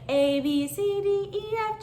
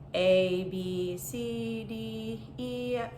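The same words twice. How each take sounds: First: It is said lively, with high energy. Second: It is said flatly, with low energy. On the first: The speaker is having fun with the activity. The speaker calls it right. "my energy was great and I was super pumped" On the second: The speaker finds the activity boring. The speaker calls it wrong. "really like tone deaf and just blah and sounded really unenthusiastic"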